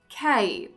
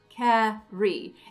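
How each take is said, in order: First: The R sound is dropped from the word. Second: The R sound is pronounced as a consonant. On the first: The speaker calls it wrong. "I got rid of all my R's" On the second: The speaker calls it right. "We need that R in carry to function as a consonant"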